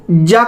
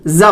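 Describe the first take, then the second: First: "जा" with hard j; plain j, not z; J sound. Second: "जा" with buzzing z; z in place of j; Z sound. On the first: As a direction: say "जा" as "jaa". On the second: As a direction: say "जा" as "zaa". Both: Shown as a demonstration. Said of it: "जा को जा बोलेंगे".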